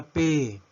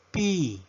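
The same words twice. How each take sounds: First: Said in the usual way. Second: Letter P pronounced "pee"; English letter P. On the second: Shown as a demonstration. Teacher modelling the English alphabet, P as "pee". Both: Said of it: "La letra P".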